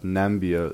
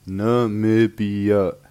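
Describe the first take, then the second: First: The name is said with three syllables. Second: The name is said with four syllables. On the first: The speaker calls it wrong. "And not Nambia" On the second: The speaker calls it right. "it's pronounced Namibia"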